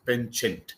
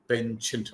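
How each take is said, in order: First: The word is said with an American pronunciation. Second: The word is said with an American pronunciation.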